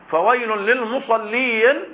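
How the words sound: The voice stops after the word lil-musallin. The threat sounds as if aimed at all who pray. "هنا وقف على رأس الآية"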